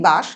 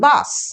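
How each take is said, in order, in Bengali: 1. শেষের ব্যঞ্জনধ্বনিটি 'sh' ধ্বনি। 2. শেষের ব্যঞ্জনধ্বনিটি সাধারণ 's' ধ্বনি। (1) "বলি বাস, কিন্তু সেক্ষেত্রে তার অর্থ দাঁড়ায় গন্ধ" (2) "এই স কিন্তু উচ্চারিত হয় এস হিসাবে"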